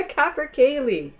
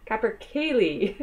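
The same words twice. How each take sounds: First: Laughing through the word capercaillie, higher and louder. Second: Said in the usual way. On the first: Real, not acted. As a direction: giggle out capercaillie. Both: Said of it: "good words".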